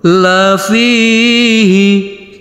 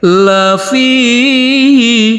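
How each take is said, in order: First: The pitch goes down. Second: The pitch goes up.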